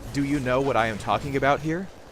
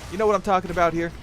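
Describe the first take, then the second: First: Each word is said fully and separately. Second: The words are run together and reduced. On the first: "I'm not pronouncing it like that" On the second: "your words could slur together"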